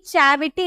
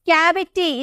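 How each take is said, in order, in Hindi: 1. यह शब्द 'ch' ध्वनि से शुरू होता है। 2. यह शब्द 'k' ध्वनि से शुरू होता है। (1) "चैविटी नहीं बोलेंगे" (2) "हम बोलेंगे कैविटी"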